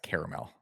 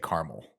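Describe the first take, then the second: First: The word is said with three syllables. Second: The word is said with two syllables. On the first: The speaker calls it right. "It is in fact caramel" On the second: The speaker calls it wrong. "the incorrect pronunciation is was when you say caramel"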